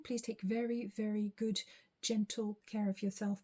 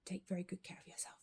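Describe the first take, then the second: First: Said in the usual way. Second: Soft breathy whisper, no voice. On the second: Real, not acted. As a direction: whisper a tender goodbye. Repeats the farewell, whispered.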